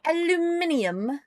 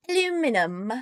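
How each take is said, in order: First: Aluminium said with five syllables, al-u-MIN-i-um; British-style Aluminium, the extra i said; British pronunciation. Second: Aluminum said in four syllables, a-LU-mi-num; American-style Aluminum, no extra i; American pronunciation. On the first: Streamer demos the British way of saying Aluminium. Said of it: "We don't spell it aluminium". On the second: Streamer demos how Americans say Aluminum. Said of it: "we spell it aluminum". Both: Shown as a demonstration.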